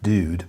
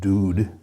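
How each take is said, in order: First: It sounds like the English word dude. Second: It sounds like the Urdu word for milk. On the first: The speaker calls it wrong. "not dude" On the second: The speaker calls it right. "but dude"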